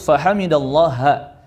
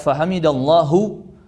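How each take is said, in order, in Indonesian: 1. Frasa itu diakhiri vokal a. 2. Frasa itu diakhiri vokal u. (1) "harus fahamidallaha" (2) "Tidak boleh dibaca fahamidallahu"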